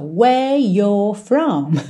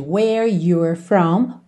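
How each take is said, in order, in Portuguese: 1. Os sons do R são omitidos, não enrolados. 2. Os sons do R são claramente enrolados. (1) "isso fica ainda mais forte na próxima linha" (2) "ao invés de"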